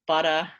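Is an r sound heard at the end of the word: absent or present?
absent. The final vowel has no r sound. "I don't have the R coloring, so I will say butter"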